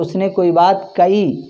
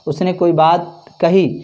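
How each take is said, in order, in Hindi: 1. 'kahi' में h की जगह हमज़ा जैसी रुकावट बोली जाती है। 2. 'kahi' में h साफ़ बोला जाता है। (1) "हा को हमज़ा में तब्दील करके" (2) "हम लोग कहते हैं"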